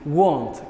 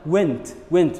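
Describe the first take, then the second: First: The vowel is an 'ah' sound. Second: The vowel is an 'eh' sound. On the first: The speaker calls it right. "The right way to say this word is want" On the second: The speaker calls it wrong. "It's not went"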